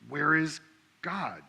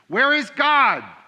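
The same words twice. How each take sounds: First: It is said more sternly and louder. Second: It is said sternest, with the loudest voice.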